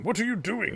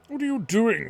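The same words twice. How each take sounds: First: Higher, sharp mock shout; a startled doctor barking a question; a doctor bursting in to find Kaim at the bedside, shouting mildly. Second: Higher and louder, a full furious shout; a doctor shouting at Kaim, fuming at his disobedience; angry shout. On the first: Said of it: "he shouts at Kaim". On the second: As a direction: yell it at him, outraged. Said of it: "the doctor shouts at him". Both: A narrator's reading.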